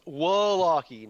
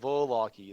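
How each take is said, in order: First: The name begins with a W sound. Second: The name begins with a V sound. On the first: The speaker calls it right. "pronounce the the V like a W" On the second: The speaker calls it wrong. "not Voloki"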